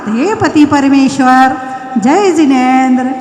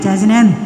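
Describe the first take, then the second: First: The greeting sounds warm and happy. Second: The greeting sounds angry and grudging.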